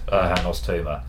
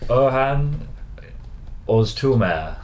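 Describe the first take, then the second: First: The name is said in a South London accent. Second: The name is said with Turkish-style pronunciation. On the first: "As pronounced in the local South London dialect" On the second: "We've done our best to try and get the Turkish pronunciation correct"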